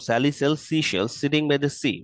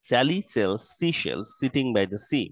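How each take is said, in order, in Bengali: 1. এটি আরও দ্রুত বলা হয়েছে। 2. এটি ধীরে বলা হয়েছে। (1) "আরেকটু দ্রুত।" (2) "প্রথমবার স্লোলি"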